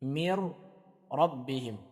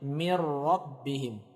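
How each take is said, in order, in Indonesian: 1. Bunyi n melebur menjadi r yang bertasydid. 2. Bunyi n melebur menjadi r yang bertasydid.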